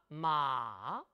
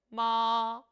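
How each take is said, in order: First: The pitch goes down slowly over a long syllable. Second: The pitch stays high and is held long. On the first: "삼성은 쭉 길게 내려옵니다" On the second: "일성은 높은 음을 길게 빼주죠"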